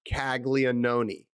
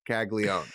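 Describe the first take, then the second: First: The name is said with the extra 'an' sound. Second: The name is said without the extra 'an' sound. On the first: The speaker calls it wrong. "It is not Caglianone. There is an extra A N in there" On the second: The speaker calls it right. "you're not going to pronounce it. It's just Caglione"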